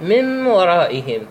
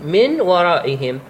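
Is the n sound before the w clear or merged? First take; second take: merged; clear. First: The n sound merges into the following w. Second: The n sound is pronounced clearly before w. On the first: "تدغم النون مع منه الواو" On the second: "تلفظ النون"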